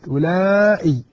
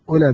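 First: A long vowel is followed by a glottal stop. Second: A short vowel with no glottal stop. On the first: This is the Hijazi form used in the Quran. "بالمد أولئي، بمعنى أن نأتي بالهمزة بعد الألف" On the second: This is the form used by Tamim, Asad and Qays. "تقصر أولى بدون همزة"

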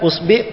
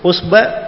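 First: The vowel after the b is i. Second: The vowel after the b is a.

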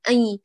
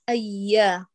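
First: The ya sound is pushed through the nose. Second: The ya sound is made without nasal resonance. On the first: The speaker calls it wrong. "كأنك بتوجه الصوت للخيشوم، فبالتالي شبعت الياء الأولى بغنى بشكل كامل" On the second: The speaker calls it right. "ما للخيشوم عمل هنا البتة"

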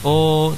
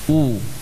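First: The vowel is open, lips not fully rounded. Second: The vowel is close, lips fully rounded. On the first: The speaker calls it wrong. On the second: The speaker calls it right.

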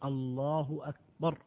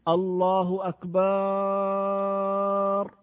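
First: The last syllable has a short vowel. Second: The last syllable has a long drawn-out vowel. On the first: God is greater. The speaker calls it right. "وإنما تقول الله أكبر" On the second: It refers to drums. The speaker calls it wrong. "هذا غلط، لأن الأكبار غير أكبر"

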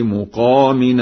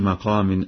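First: The first vowel is a 'u' sound. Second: The first vowel is an 'a' sound.

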